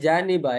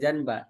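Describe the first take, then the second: First: A vowel is heard between n and b. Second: No vowel is heard between n and b. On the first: The speaker calls it right. "Ini janiba ya" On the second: The speaker calls it wrong. "bukan janba"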